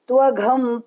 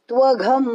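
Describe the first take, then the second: No difference in how they are said.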